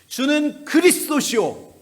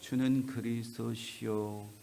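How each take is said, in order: First: It is said forcefully, like a strong proclamation. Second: It is said flatly, like rote recitation. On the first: It is a personal declaration of belief. The speaker calls it right. "이렇게 강력하게 선포해야" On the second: It is only memorized words. The speaker calls it wrong. "성경 암송하듯이"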